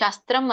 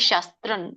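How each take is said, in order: First: The word ends with an m-like nasal. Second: The word ends with a dental n sound. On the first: "ಇಲ್ಲಿ ಅನುಸ್ವಾರ ಎರಡ್ ಕಡೆ ಇದೆ ನೋಡಿ" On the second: "ತ ವರ್ಗದ ಒಂದು ಅನುನಾಸಿಕ ನ ಬರುತ್ತೆ"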